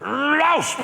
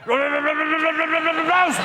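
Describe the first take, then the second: First: The bark is said with a lisp. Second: The bark is said with a stammer.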